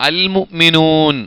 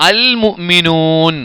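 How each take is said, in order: The two takes are said the same way.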